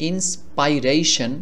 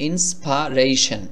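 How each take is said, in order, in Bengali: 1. 'insp' এর পরের স্বরধ্বনিটি 'eye' এর মতো শোনায়। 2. 'insp' এর পরের স্বরধ্বনিটি 'eh' এর মতো শোনায়। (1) "উচ্চারণ হওয়ার কথা ছিল এভাবে ইন্সপাইরেশন" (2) "এর মতো করে উচ্চারণ করতে হবে ইন্সপারেশন"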